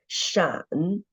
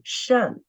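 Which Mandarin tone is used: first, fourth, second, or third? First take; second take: third; fourth. First: The syllable is said with the third tone. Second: The syllable is said with the fourth tone. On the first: "and the third tone" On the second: "And the fourth tone"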